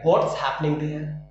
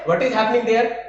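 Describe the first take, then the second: First: "What is" is shortened to "what's". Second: "What is" is said as two full words.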